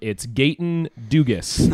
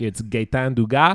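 First: The name is said with an English Canadian accent. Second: The name is said with a Quebec French accent.

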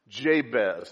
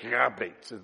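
First: The name begins with a J sound. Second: The name begins with an H sound. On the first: This is the usual English way of saying it. "that's how we say it in English" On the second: This is how Hebrew speakers say it. "If you were a Hebrew scholar, you wouldn't say it like that. Actually, it'd be like Habates"

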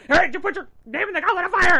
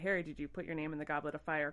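First: It is said in an aggressive tone. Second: It is said in a calm tone.

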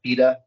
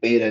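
First: It is said with a non-American pronunciation. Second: It is said with an American pronunciation. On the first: "not beta" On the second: "Americans say beta"

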